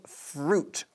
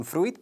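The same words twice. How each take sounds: First: "fruit" as one syllable, froot, strong final T; one-syllable pronunciation. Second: "fruit" said as spelt, with the i sounded; wrong pronunciation. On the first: Teacher showing learners the word, "fruit" in one syllable. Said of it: "con una sola sílaba y con una T bastante fuerte". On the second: Teacher showing learners the spelling trap, "fruit" mispronounced as froo-it. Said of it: "no se pronuncia así. Se escribe". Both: Shown as a demonstration.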